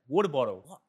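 It is said in an Australian accent. "They don't understand my Australian accent"

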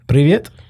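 The greeting is pronounced the Russian way. "It's Russian"

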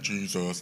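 It is said in a deep, manly voice.

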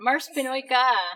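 The voice falls at the end like a statement. It sounds like a statement. The speaker calls it wrong. "I'm sorry"

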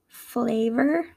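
Spoken in an American English accent. "in my American accent"

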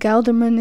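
The name is pronounced with English sounds. "I think you'd pronounce it Gelderman in English"

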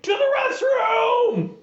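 It is said in an overexcited way.

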